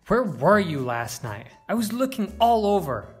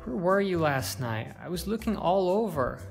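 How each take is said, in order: First: The voice sounds angry. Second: The voice sounds worried. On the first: "Or even angry"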